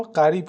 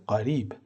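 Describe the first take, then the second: First: Said in the usual way. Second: «قریب» with an Arabic qaf, distinct from ghayn. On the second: Shown as a demonstration. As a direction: say «قریب» the Arabic way, starting on a uvular stop q. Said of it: "و دومی به صورت". («قریب» با تلفظ عربیِ حرف قاف)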